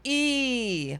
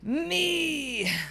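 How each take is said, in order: First: The voice is clean and smooth. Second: The voice is rough and gritty.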